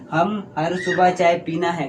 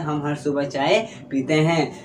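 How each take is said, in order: First: Slow, deliberate पीना है as the error; wrong form. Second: Slow, clear पीते हैं as the right ending; correct form. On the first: Teacher asks students if we ever say it, slow mock-wrong. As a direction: dwell on सुबह, say पीना है as the mistake. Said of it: "कभी नहीं बोलते". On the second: Teacher gives students the correct sentence, slow and clear. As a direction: lean on चाय, land पीते हैं firmly. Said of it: "हम बोलते हैं". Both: Shown as a demonstration.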